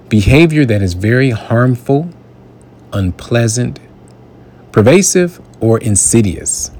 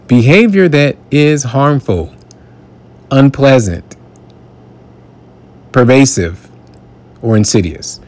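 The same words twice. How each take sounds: First: Said in the usual way. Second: Behavior that is harmful punched higher, each word weighed; stressed repeat. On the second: Shown as a demonstration. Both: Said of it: "Let me say that again".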